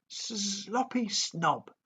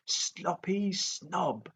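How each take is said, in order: First: High, slow sing-song taunt; taunting dragon call. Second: High, slow sing-song jeer; jeering dragon. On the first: Toothless taunts Fireworm in midair, high slow sing-song. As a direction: drawl the insult out to tease. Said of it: "Toothless called out". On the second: Toothless repeats the taunt at Fireworm, slow sing-song jeer. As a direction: drawl out the jeer. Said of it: "jeered Toothless". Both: A narrator's reading.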